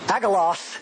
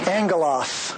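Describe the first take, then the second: First: The double G is sounded as a plain hard G. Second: The double G is sounded as NG. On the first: The speaker calls it wrong. "it's not agalos" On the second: The speaker calls it right. "you pronounce them like an N-G"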